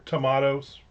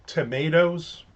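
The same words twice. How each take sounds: First: "tomatoes" with middle syllable said "mah"; "tomatoes" with an open ah in the middle; broad A in tomatoes. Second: "Tomatoes" with middle syllable said "may"; "Tomatoes" with an American long A. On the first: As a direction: say tomatoes as tuh-MAH-toes. Alternative pronunciation of same word. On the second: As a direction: say Tomatoes as tuh-MAY-toes. Offers two pronunciations of the name. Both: Shown as a demonstration.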